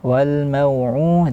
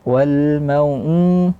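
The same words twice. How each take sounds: Both takes have the same delivery.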